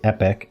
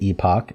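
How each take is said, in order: First: It is pronounced the American way. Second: It is pronounced the British way. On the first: "Americans say epic" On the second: "British say epoch"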